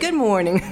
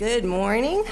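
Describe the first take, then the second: First: The voice falls at the end, like a statement. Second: The voice rises at the end, like a question. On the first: It is a confident greeting. The speaker calls it right. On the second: It sounds like a question. The speaker calls it wrong.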